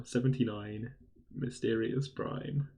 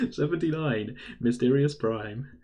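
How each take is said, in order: First: Bingo caller. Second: Slow, drawn-out bingo call; bingo caller. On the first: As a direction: call it out again, drawn out. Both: Shown as a demonstration. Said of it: "That's my bingo call now".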